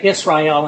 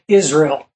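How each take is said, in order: First: Israel is said with a Hebrew-like pronunciation. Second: Israel is said with an American pronunciation. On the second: "We in America say Israel"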